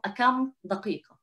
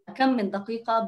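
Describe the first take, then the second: First: The two words join with no extra sound. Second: An extra 'n' sound links the two words. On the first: "זה קצת קשה" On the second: "שמים את הנון הזה, כי זה הרבה יותר קל להגיד את זה"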